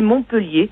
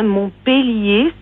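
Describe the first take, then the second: First: The second syllable has a weak schwa. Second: The second syllable has a clear open e. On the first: The speaker calls it wrong. "tout le monde dit Montpellier" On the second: The speaker calls it right. "c'est la prononciation réelle"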